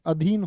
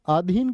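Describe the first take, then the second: First: "अधीन" said as adheen, short opening a; "अधीन" starting on a brief अ; correct short first vowel. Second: "अधीन" said as aadheen, long opening aa; "अधीन" mispronounced as आधीन; wrong long first vowel. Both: Shown as a demonstration. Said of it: "जी नहीं, अधीन होता है".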